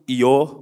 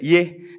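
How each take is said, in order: First: The word ends in an o vowel. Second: The word ends in an e vowel. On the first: "Kalau Jawa kan itbak" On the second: "kalau Jakarta mah iye kan gitu ya"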